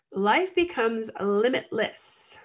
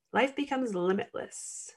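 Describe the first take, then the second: First: Said in the usual way. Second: Hushed emphatic repeat; soft echo. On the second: Real, not acted. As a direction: repeat it much softer, letting it sink in. Quiet echo of the phrase.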